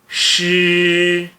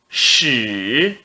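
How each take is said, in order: First: The pitch stays high and level. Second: The pitch dips low, then rises. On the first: "S H I no primeiro tom fica X" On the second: "No terceiro tom"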